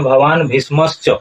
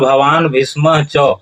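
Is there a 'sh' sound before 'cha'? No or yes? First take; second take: yes; no. First: A 'sh' sound comes before 'cha'. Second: No 'sh' sound comes before 'cha'. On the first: The speaker calls it wrong. "इस तरह से भवान भीष्मश्च उच्चारण नहीं होगा" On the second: The speaker calls it right. "उच्चारण होगा भवान भीष्म च"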